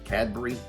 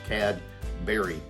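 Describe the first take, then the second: First: It is said smoothly as one word. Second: It is said like two separate words. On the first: This is how it probably should be said. "like as it probably should be, one word" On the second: This is how people locally say it. "as in two words"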